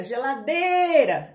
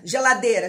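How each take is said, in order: First: "geladeira" called out with a long "dei"; demorando na tônica. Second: Said in the usual way. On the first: Shown as a demonstration. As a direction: stretch "geladeira" on its third syllable, slowly. ("geladeira" com o "dei" bem esticado) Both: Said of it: "a sílaba que você demorar".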